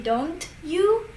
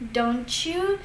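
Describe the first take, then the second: First: "Don't you" with a clear T, then Y; separate words. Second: "Don't you" merged into "donchu"; linked CH sound. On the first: Teacher showing the form instead, "Don't you" as two separate words. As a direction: keep "Don't" and "you" apart, no CH. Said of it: "So instead of saying". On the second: Teacher repeating the linked example, "Don't you" as "donchu". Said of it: "T becomes like a C H sound". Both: Shown as a demonstration.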